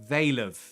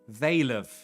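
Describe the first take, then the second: The two takes are said the same way.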